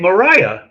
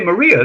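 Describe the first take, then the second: First: The name is said the way England says it. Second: The name is said the usual non-English way. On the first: "in England they say Mariah" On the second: "they don't say Maria"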